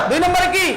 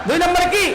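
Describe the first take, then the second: No difference in how they are said.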